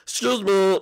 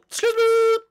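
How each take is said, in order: First: Said in the usual way. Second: Calling out. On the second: Acted. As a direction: Excuse me called out higher and a bit louder. Calls again, louder.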